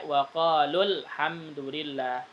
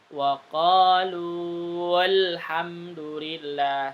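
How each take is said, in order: First: The 'lu' vowel is short and joined on. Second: The 'lu' vowel is drawn out long. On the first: The speaker calls it right. "Jadi bacanya waqalul hamdulillah" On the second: The speaker calls it wrong. "Lu-nya dipanjangkan dulu"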